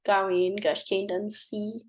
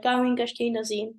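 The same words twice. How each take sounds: First: "Gawin, Gush, Kingdom, C" pulled apart word by word, ending on a hissed S; "Gawin, Gush, Kingdom, C" chopped into words with an effortful S at the end; awkward separated S. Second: "Gawin Gush Kingdom Z" run together quickly, ending on a buzzing Z; "Gawin Gush Kingdom Z" slurred into a single quick phrase with a voiced Z; fast natural Z. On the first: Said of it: "trying to say S after N doesn't go so well". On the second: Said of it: "if you're talking fast and you're like". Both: Shown as a demonstration.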